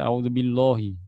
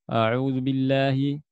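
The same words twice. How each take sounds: First: The lam sound is heavy and thick. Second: The lam sound is light and thin. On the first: The speaker calls it wrong. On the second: The speaker calls it right.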